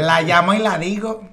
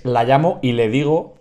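First: "La llamo y la digo" said with la twice, raised; mock laísmo "la digo" said higher and louder; laísta version. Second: "la llamo y le digo" with le on digo, plain level; calm corrected "le digo"; correct version. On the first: Host mocking his cohost's laísmo, raised voice. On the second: Cohost correcting the grammar, calm plain voice. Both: Shown as a demonstration.

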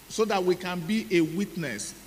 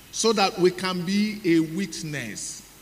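First: Said in the usual way. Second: Slow, stressed preaching line; emphatic preaching. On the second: Shown as a demonstration. Preacher stressing the witness point to the congregation, slow and emphatic. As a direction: lean on each word to drive it home.

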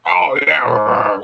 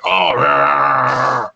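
First: Growly commentator voice. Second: Low growly announcer "Oh, yeah"; growly commentator voice. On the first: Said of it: "that growly commentator voice". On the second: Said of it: "growly commentator voice where it's like". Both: Retold or imitated.

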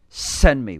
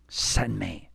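First: Louder, emphatic send me; bold offer. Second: Softer, hushed send me; quiet offer. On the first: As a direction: declare it boldly. Isaiah answers God, second take. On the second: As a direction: offer yourself softly. Isaiah answers God, first take. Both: Acted.

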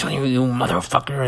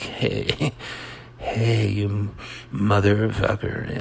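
First: Hammed-up angry outburst; dramatic. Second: Laid-back, easygoing cursing with a little laugh; mellow mock-melodramatic. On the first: Comic demonstrating dramatic to the audience, mock-angry. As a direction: curse someone out in mock fury. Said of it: "dramatic is". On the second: Comic contrasting it with dramatic, mellow. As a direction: swear at them as if totally chilled. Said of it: "melodramatic is like".

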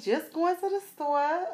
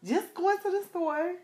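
First: Much higher, sassy answer; playful ratchet attitude; ratchet sass. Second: Hammed-up ratchet attitude; ratchet sass. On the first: Retold or imitated. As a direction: put it on for him. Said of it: "And I was like". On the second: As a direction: really put it on for him. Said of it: "Y'all, I am so ratchet".

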